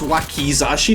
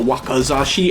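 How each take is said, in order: First: The second syllable has an 'ee' vowel, 'ki'. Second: The second syllable has an 'ah' vowel, 'ka'. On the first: The speaker calls it right. "if you actually look at the spelling, it's Wakizashi" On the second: The speaker calls it wrong. "not Wakazashi, and I say Wakazashi a lot"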